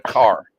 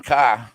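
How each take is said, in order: First: Said in the usual way. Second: "car" without the r, as "cah"; dropped r. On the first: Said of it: "instead of car". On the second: Shown as a demonstration. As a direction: drop the r at the end of "car". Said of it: "I got harassed for saying car".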